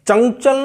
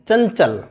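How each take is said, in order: First: The nasal sounds like 'ng' before 'ch'. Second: The nasal sounds like 'ny' before 'ch'. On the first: The speaker calls it wrong. "चंचल नहीं है" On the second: The speaker calls it right. "ञ की आवाज निकल रही है"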